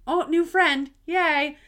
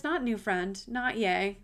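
First: Higher and louder, mock bubbly cheer; a playful imitation of her own delight; retold excitement. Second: Flat letdown echo of her own cheer; wry disappointed retake; deflated. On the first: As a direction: replay the happy rush of a new friend. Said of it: "I got really excited thinking". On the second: Retold or imitated. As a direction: drop the joy out of not new friend, not yay. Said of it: "And then I realized".

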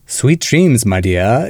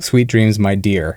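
First: Mid-Atlantic accent, the r dropped in "dear"; old-movie transatlantic accent, "dear" as "dee-uh"; Vincent Price. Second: Said in the usual way. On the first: Shown as a demonstration. Host showing how old actors talk, Mid-Atlantic accent. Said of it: "Vincent Price would say". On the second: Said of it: "instead of".

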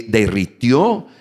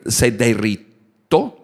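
First: Derritió said slowly and carefully, with a rise; careful corrected derritió. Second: Says derritó, dropping the i, slowly; slow slip: derritó for derritió; mispronounced derritó; wrong word derritó. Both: Real, not acted. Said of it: "Se derritió".

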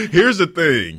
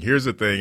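First: Said through a laugh, higher and louder. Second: Said in the usual way. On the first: Real, not acted. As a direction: push the words out still laughing. Repeats phrase, first while laughing.

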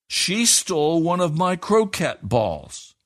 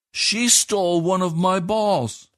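First: Put-on high, slow child's accusation; high, slow indignant boy at home; indignant boy accusing. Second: Put-on high, slow child's accusation; high, slow indignant boy at the neighbours; indignant boy accusing. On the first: Edward accuses Katie. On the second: Edward accuses Katie to Browns. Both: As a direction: stress SHE, a boy tattling.

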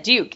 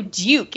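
First: "Duke" without the y-glide, like "dook"; pupil's own pronunciation. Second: "Duke" with a y-glide, like "dyook"; coach's corrected pronunciation. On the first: Terry insisting to the coach, "Duke" said as "dook". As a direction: say "Duke" as a plain American "dook". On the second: Coach correcting Terry, "Duke" said as "dyook". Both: Retold or imitated. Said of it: "That's what I said".

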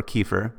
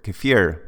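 First: KEFIR as KEE-fer; alternate pronunciation. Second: KEFIR as kuh-FEER; alternate pronunciation. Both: Shown as a demonstration. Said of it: "depending on how you want to say it".

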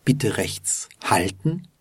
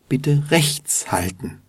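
First: Slight emphasis on "halten"; stress on halten. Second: Higher-pitched phrase with emphasis on "rechts"; stress on rechts. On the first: Teacher shows the first version, stressing "halten". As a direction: lean on "halten", meaning stop on the right. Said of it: "hat eine kleine Betonung auf halten". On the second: Teacher shows the other version, stressing "rechts". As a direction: lean on "rechts", meaning keep to the right. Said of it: "hat eine kleine Betonung auf rechts". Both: Shown as a demonstration.

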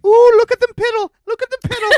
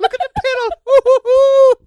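First: High, gleeful little leprechaun voice. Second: Giggling, squeaky little leprechaun. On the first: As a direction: squeal it like a giddy leprechaun. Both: Retold or imitated. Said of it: "You sound like a little leprechaun".

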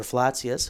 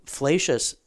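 First: "Flacius" said as FLAH-tsee-us; Latinate pronunciation. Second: "Flacius" said as FLAY-shus; anglicized pronunciation. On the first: Panelist offering the alternative name pronunciation, "Flacius" as FLAH-tsee-us. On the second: Panelist offering one way to say the theologian's name, "Flacius" as FLAY-shus. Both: Shown as a demonstration. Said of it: "however we decided to say it".

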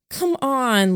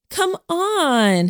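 First: Coaxing plea. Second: High echoing plea. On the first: Lillian pleading with Jamie. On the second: Helen echoing Lillian to coax Jamie, high whiny plea. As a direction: echo the plea much higher, whiny. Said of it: "Helen echoed her". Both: A narrator's reading.

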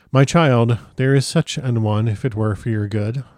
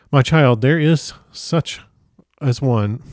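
First: Said in the usual way. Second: Halting, tripping over the words; fumbled slow read that derails; tongue-tied stumble. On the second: Real, not acted. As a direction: lose the line mid-phrase and drag it out. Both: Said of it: "I am completely tongue-tied".

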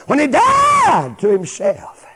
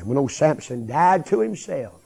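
First: Slow, high, very loud cry; preaching shout. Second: Said in the usual way. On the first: Real, not acted. Preacher driving home Samson's death to self, shouting it slowly. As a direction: shout it out, stretching the words.

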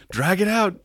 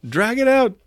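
First: High put-on voice urging him on; egging a forgetful co-star along, pitched high; mock coaching. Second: Mock coaching, higher. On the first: Actor prompts the stalled judge, mock high urging. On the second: Actor keeps prompting the judge, pitched even higher. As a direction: push it further up as the urging grows. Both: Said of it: "Daniel Day-Lewis was motioning".

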